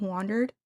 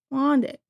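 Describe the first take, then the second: First: Said in the usual way. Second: WANDERED said as "wandit"; higher, louder WANDERED with the R dropped; imitated pronunciation. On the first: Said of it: "instead of "wandered". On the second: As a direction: imitate WANDERED clipped down to "wandit", almost "wanted". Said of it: "she's saying, like".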